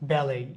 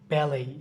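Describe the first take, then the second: No difference in how they are said.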